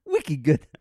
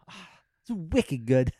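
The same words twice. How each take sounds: First: Louder, hammed-up Boston accent on "Wicked good". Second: Put-on light Boston accent, a bit slow. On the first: Retrying the Boston accent, a bit louder. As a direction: push the Boston accent harder, then give up. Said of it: "I can't do it". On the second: Bragging about Boston clam chowder in a mock Boston accent. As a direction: lean into the Boston accent for a laugh. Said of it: "trying to do a Boston accent".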